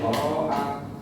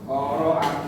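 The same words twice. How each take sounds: No difference in how they are said.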